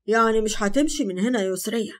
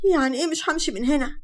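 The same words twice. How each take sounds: First: Said in the usual way. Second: Puzzled. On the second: A narrator's reading. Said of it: "بصت له باستغراب وقالت".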